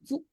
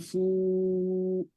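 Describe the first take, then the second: First: The vowel is cut off short. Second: The vowel is drawn out long. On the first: The speaker calls it right. "so you pronounce it briefly" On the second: The speaker calls it wrong. "You don't drag it. You don't say fu"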